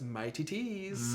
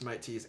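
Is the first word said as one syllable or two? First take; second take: two; one. First: The first word has two syllables, like mighty. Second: The first word has one syllable, like Mike. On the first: The speaker calls it wrong. "as one of our friends says" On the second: The speaker calls it right. "it's just Mike Tees"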